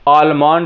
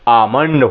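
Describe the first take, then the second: First: An L sound is pronounced after the first vowel. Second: No L sound is pronounced after the first vowel. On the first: The speaker calls it wrong. "आलमंड लोग बोलते हैं" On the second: The speaker calls it right. "लेकिन आलमंड नहीं आमंड होता है"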